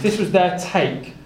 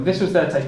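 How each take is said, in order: First: Slow, weighty stress on "this was their take"; preacher underlining the Pharisees' excuse; slow emphatic. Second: Said in the usual way. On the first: Shown as a demonstration. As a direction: lean on each word of "this was their take", drawn out.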